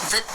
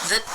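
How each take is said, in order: The two takes are said the same way.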